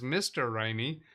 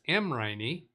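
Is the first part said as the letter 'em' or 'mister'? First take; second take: mister; em. First: The initial is read out as the word mister. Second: The initial is said as the letter em. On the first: The speaker calls it wrong. "I first pronounced that to myself this morning as Mister Riney" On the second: The speaker calls it right. "No, it's M. Riney"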